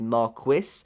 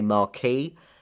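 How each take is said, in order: First: It is said with a British English pronunciation. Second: It is said with an American English pronunciation. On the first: "some English pronunciation is" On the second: "in America they say"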